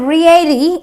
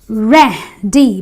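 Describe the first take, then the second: First: The first vowel is not a short 'eh'. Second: The first vowel is a short 'eh'. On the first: The speaker calls it wrong. "So I don't say ready" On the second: The speaker calls it right. "I say ready, because the E A gives me the eh sound"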